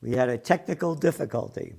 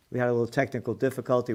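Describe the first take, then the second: First: Said in the usual way. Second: Fast. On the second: Shown as a demonstration.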